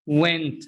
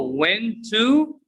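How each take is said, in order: First: "Went" blended into "wenta"; falling one-word "wenta"; weak "tuh" ending on "Went"; reduced pronunciation. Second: Slow "went to" rising on a long "too"; higher, stretched two-word "went to"; full drawn-out vowel in "went to"; unreduced citation form. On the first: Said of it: "is pronounced". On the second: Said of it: "to is pronounced". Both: Shown as a demonstration.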